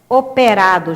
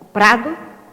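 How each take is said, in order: First: All vowels are fully pronounced. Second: The unstressed vowels are dropped.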